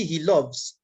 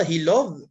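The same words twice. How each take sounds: First: "loves" ending in a clear audible s; "he loves" with the s sounded as a z at the end; correct form demo. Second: "he love" said without any final s; "love" ending bare, the s deliberately dropped; wrong form demo. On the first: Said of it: "je dis he loves". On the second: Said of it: "Je dis pas". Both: Shown as a demonstration.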